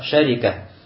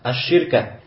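First: A after sh, i after r. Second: I after sh, no vowel after r. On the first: "с фатхой над шин и с касрой над ра" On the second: "с касрой под шин и с сукуном над ра"

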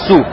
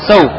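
First: The word has a rounded 'u' vowel. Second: The word has an open 'au' vowel. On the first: This is the rarer reading. "некоторые из чтецов Басры читают с даммой над син «су»" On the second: This is the more common reading. "Большинство чтецов Куфы читают это слово как «сау», «бифатхи син»"

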